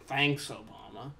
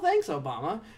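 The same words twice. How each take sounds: First: It sounds sarcastic and annoyed. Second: It sounds sincere and grateful. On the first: Someone did something bad. "if you're like doing something bad" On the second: Someone did something good. "if you did something good"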